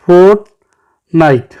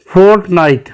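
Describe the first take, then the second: First: Fortnite slowly as fort, night; two separate beats on Fortnite; split into syllables. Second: Said in the usual way. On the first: Shown as a demonstration. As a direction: clear pause mid-word in Fortnite. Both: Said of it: "टू syllable".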